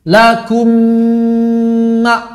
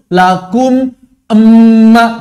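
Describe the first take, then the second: First: The two m sounds merge into one. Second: The two m sounds are said separately. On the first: The speaker calls it right. "sekali aja" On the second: The speaker calls it wrong. "nggak perlu begitu"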